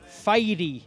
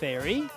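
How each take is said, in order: First: It is said with a Catalan pronunciation. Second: It is said with an English pronunciation. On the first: The speaker calls it wrong. "Catalan pronunciation of English words" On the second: The speaker calls it right. "the right answer is"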